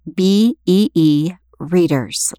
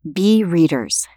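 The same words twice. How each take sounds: First: B E E spelled letter by letter, slowly; slow letter-by-letter spelling of B E E before readers. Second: Said in the usual way. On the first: Shown as a demonstration. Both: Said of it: "like the insects that we depend on".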